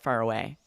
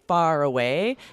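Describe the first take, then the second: First: The vowel in far is softened and reduced. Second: The vowel in far is full and clear. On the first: "that vowel sound in the middle could definitely become softer" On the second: "instead of saying far away"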